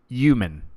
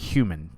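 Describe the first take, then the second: First: The word starts without an H sound. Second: The word starts with a clear H sound. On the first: The speaker calls it wrong. "people who don't pronounce the H in human? They're like" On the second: The speaker calls it right. "We call him human"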